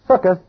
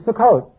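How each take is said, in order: First: It is said with an Ashkenazi European pronunciation. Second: It is said with a modern Israeli pronunciation. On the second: "The way they would say it today in Israel would be"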